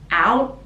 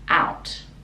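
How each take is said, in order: First: The final T is stopped and not released. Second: The final T is clearly released. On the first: "out can stop the T at the top" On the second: "or you can pronounce it"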